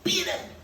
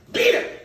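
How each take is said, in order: First: Much higher, loud cry of Beat him; father's shout. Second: Sharp loud cry of beat him; retold shout. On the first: Retold or imitated. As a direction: yell it as the father did. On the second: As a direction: shout it like the father. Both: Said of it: "The way my father said it".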